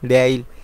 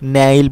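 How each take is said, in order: First: The word begins with a d sound. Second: The word begins with an n sound. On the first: This is how Koreans actually say it. "তারা বলার সময় কি বলে দেইল এভাবে বলে থাকে" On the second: This is how the spelling reads letter by letter. "এটা ভেঙে পড়লে নেইল পড়ে"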